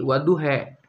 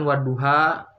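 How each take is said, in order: First: The word ends with an 'e' vowel. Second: The word ends with an open 'a' vowel. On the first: "diimalehkan itu menjadi" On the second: "dalam surat Al-Qur'an wadduha"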